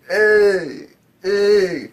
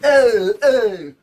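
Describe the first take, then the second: First: It is said laid-back and chill. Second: It is said loud and hyped.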